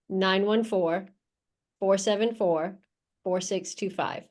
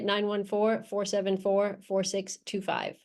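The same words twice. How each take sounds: First: The number is said slowly. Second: The number is said at normal speed.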